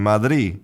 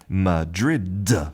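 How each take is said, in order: First: The final D sound is left out. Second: The final D sound is clearly pronounced. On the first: The speaker calls it wrong. "sometimes that final D is just not pronounced... the D is gone completely" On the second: The speaker calls it right. "keeping that final consonant"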